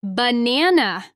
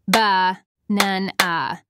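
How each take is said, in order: First: Said in the usual way. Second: "Ba-nan-a" slowly, in three separate low beats; split into syllables. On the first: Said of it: "say the syllables in the words". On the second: Shown as a demonstration. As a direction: break "Ba-nan-a" apart with a pause after each syllable. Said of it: "Listen as I clap and say the syllables in the words".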